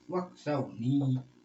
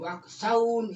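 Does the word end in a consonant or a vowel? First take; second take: vowel; consonant. First: The word ends with an added i vowel. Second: The word ends on the n sound. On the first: The speaker calls it right. "Nah ini buktinya waksauni dibaca gitu loh" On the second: The speaker calls it wrong. "Kalau sampai waksaun itu bukan wakof itu keliru"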